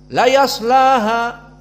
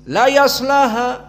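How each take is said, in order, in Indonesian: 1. Bunyi s dipotong pendek dengan cepat. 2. Bunyi s dipotong pendek dengan cepat.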